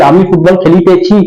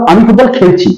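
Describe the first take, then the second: First: Put-on খেলিতেছি said in full with the old তেছি ending; the dated form খেলিতেছি, every syllable sounded; old bookish form. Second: খেলছি said short as in everyday speech; the everyday form খেলছি, clipped ending ছি; modern spoken form. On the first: Teacher shows students the old খেলিতেছি form. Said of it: "আমরা এখন তেছি তেছো বলি না". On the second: Teacher shows students the modern spoken খেলছি. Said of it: "এভাবে আমরা কথা বলি". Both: Shown as a demonstration.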